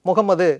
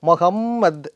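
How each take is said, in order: First: It starts with 'mu', ends on a final 'u'. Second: It starts with 'mo', ends on a final 't'. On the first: The speaker calls it wrong. "முகம்மது அப்படின்னு சொல்லக்கூடாது" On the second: The speaker calls it right. "மொஹம்மத் அப்படின்னு சொல்லணும்"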